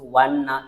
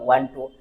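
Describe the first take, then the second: First: The words are contracted and blended together. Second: Every word is said fully and separately. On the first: "use wanna" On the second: "instead of want to"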